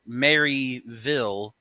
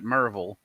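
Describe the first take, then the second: First: The first part is said as 'Mary'. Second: The first part is said as 'Mer'. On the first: "which is Maryville" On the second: "we pronounce it Merville"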